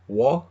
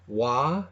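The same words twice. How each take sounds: First: It is said with the lips rounded. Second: It is said with the mouth loose and open.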